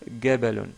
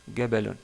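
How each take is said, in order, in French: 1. Il commence par un son g dur. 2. Il commence par un son g dur.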